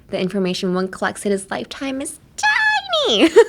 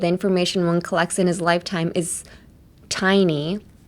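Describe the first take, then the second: First: The word tiny is said in an exaggerated way. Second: The word tiny is said in a plain way. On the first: The amount is extremely, minutely small. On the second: The amount is simply small.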